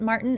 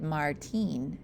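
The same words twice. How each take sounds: First: Martin said the English way, MAR-tən; English pronunciation. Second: Put-on Martin with rolled R, mar-TEEN; Spanish pronunciation. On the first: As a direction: say Martin as an American name, stress up front. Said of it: "Not when you pronounce it Martin". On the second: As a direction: say Martin like a fancy Spaniard, stress at the end. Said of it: "roll your R's like a fancy Spaniard". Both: Shown as a demonstration.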